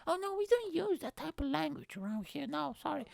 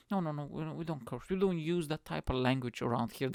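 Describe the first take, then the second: First: Very high-pitched squeaky prude imitation; exaggerated prissy mockery. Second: Lightly imitated prudish objection; mild prim mockery. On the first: Religious people objecting to language, mocked in squeaky voice. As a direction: ham up the prim objection, way up high. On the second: Religious people refusing to curse, mildly mocked. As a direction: mildly mimic someone primly objecting. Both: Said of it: "That's what they always say".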